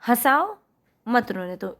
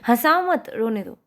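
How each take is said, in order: First: There is a pause after the first word. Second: There is a pause after the second word. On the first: Keep making people laugh; let no one cry. "इस तरह से हम बोल रहे हैं थोड़ा सा विश्राम करके" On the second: Do not make them laugh; let them cry. "उसको हँसाओ मत, बिल्कुल हँसने मत दो, रोने दो"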